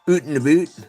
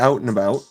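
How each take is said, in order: First: The word out sounds like oot. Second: The word out sounds like out.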